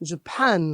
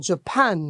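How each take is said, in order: No difference in how they are said.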